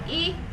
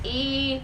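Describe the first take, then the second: First: The vowel is held briefly. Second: The vowel is held twice as long. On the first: "जब छोटा बोलते हैं हम" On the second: "इसमें ज्यादा समय लग रहा है"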